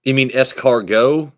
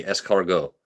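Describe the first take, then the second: First: Slow, deliberate "escargot" with the French ending, rising at the end; correcting a chat spelling, stressing "escargot"; escargot said carefully. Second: Said in the usual way. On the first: Shown as a demonstration. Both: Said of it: "It's E S C A R G O T".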